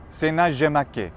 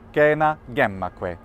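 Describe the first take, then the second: First: Latin spoken with a French pronunciation. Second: Latin spoken with a classical pronunciation. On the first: "what about in France?" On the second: "in my pronunciation, classical"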